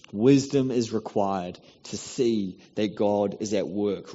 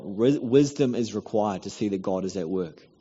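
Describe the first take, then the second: First: "Wisdom is required to see that God is at work" drawn out slowly, Wisdom leaned on; slow it right down and press on Wisdom; slow emphatic repeat. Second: Said in the usual way. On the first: Shown as a demonstration. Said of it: "repeated line, slowed down". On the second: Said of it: "repeats the line slower".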